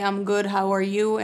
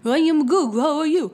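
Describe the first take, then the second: First: It is said without a foreign accent. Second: It is said with a heavy foreign accent.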